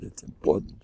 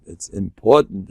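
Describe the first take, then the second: First: Very soft, trailing repeat; hushed aside. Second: Said in the usual way. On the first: Real, not acted. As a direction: drop it almost to nothing.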